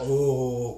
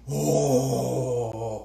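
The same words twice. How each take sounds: First: Impressed oh, said again the same way; admiring oh. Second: Drawn-out, impressed oh; admiring oh. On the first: Teacher repeats the proud reaction to good yarn, admiring oh. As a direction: sigh out a proud oh at your yarn. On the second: Spinning teacher shows how to admire a finished yarn, impressed oh. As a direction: marvel at the yarn with one word. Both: Shown as a demonstration. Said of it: "il faut toujours dire".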